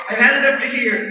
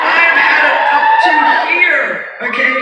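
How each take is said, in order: First: Said in the usual way. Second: Loud, high mock yell at the director; retold shout. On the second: Snapping at the director who called her too old, loud mock yell. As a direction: blow up at him down the phone. Yelling back at insulting director.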